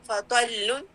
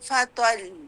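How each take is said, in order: First: The doubled consonant flows on without extra stress. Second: The final doubled consonant is pressed with stress. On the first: The word is read connected, without stopping. "फ़त्वल्लुन तो नबर तो नहीं है" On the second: The reader stops on the word. "मैंने वक़्फ़ ले लिया, तो फिर मैं कहूँगी"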